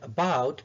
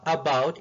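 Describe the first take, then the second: First: The first vowel is a short schwa. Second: The first vowel is a full vowel. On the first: The speaker calls it right. "it's opinion, about" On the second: The speaker calls it wrong. "we don't say opinion or about"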